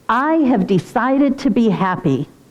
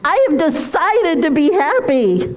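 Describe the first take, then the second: First: It is said in a serious, somber tone. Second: It is said in a light, playful tone.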